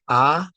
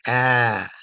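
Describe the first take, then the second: First: The vowel is short. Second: The vowel is stretched out long. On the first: "the sound of ah as a fatha" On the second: "can be stretched out to be ah"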